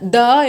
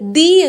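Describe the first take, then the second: First: The word ends in a short 'uh' vowel. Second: The word ends in an 'ee' vowel. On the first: It comes before a consonant sound. "Consonant സൗണ്ട്സിന് തൊട്ട് മുന്നിലായിട്ട് ദ" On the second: It comes before a vowel sound. "Vowel സൗണ്ട്സിന് തൊട്ട് മുന്നിലായിട്ട് ദി"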